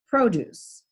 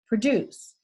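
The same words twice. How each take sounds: First: The stress is on the first syllable. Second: The stress is on the second syllable. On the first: "the stress is on the first syllable" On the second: "the accent's on the second syllable"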